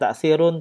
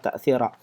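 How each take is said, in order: First: The word ends with the sound -un. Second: The word ends with the sound -a. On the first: The speaker calls it wrong. "tidak ta'thirun" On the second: The speaker calls it right. "Yang benar itu adalah ta'thira"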